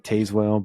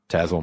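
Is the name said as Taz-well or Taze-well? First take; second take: Taze-well; Taz-well. First: The name is said as spelled, Taze-well. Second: The name is said as Taz-well, e silent. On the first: The speaker calls it wrong. "It looks like Tazewell, but please don't say that" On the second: The speaker calls it right. "I heard Tazwell my whole life"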